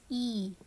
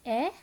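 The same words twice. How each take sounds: First: "e" said as a long "ee", falling; long E sound. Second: Brief "eh" with a questioning rise; short E sound. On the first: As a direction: hold "e" as "ee". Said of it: "or the long sound". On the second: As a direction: keep "eh" short. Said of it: "the short sound, which is". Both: Shown as a demonstration.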